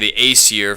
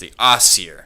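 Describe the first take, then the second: First: The first syllable does not sound like 'ass'. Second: The first syllable sounds like 'ass' or 'os'. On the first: The speaker calls it wrong. "people may say the Aesir" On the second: The speaker calls it right. "it's technically pronounced the Asir. So it's almost like you're saying ass or os"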